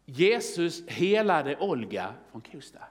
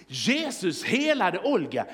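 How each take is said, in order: First: Slow, measured reading of a headline. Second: Slow, emphatic, astonished headline; amazed second reading. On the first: Preacher reading the newspaper placard, slow headline reading. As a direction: read it out slowly, word by word. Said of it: "vad är det som står här på löpsedlarna". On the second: Preacher looking twice at the placard, amazed emphatic reading. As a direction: read JESUS HELADE OLGA out slowly with amazed emphasis. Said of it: "jag får se en gång till". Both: Acted.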